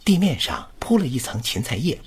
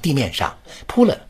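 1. 'dimian shang'之后有一个轻微的停顿，然后继续。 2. 'pu le'之后有一个较重的停顿。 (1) "是地面上稍微顿一下，铺了一层芹菜叶" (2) "不要断得太重，不要地面上铺了"

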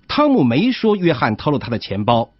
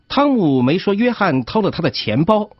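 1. 重音落在“汤姆”上。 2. 重音落在“钱包”上。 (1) "这种读法的意思是汤姆没这么说，是别人这么说" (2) "他的意思是约翰没偷钱包，但是偷了别的东西"

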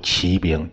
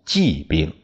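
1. 第一个音节是升调。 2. 第一个音节是降调。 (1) "现在呢我们就读骑兵" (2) "其实呢应该读骑兵"

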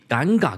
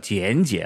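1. 这个词读作 'ganga'。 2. 这个词读作 'jianjie'。

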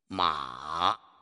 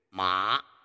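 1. 音高先降到低，再升起来。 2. 音高从中音升到高音。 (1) "先降后升" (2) "由中到高往上升"

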